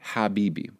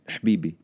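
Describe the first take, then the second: First: It is said with its full vowels, Levantine style. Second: It is clipped short with a vowel dropped, Moroccan style.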